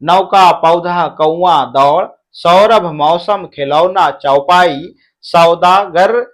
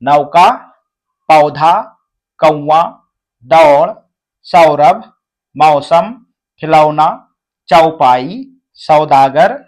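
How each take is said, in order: First: The words are read at a faster pace. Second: The words are read at a slower pace.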